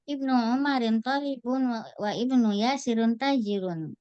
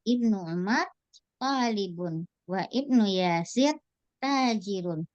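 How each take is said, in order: First: It is read straight through without phrasing intonation. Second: It is read with intonation and pauses between phrases. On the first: Listeners cannot tell subject from predicate. The speaker calls it wrong. "kalau kita baca langsung" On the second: Listeners can tell subject from predicate. The speaker calls it right. "ketika kita kasih intonasi"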